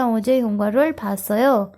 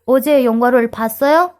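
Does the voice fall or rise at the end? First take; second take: fall; rise. First: The pitch stays plain and falls at the end. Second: The pitch rises at the end like a question. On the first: It states that the speaker saw a movie yesterday. "Simple tone में भी बोल सकते हैं" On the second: It asks whether the listener saw a movie yesterday. "अब तो ये क्वेश्चन हो गया"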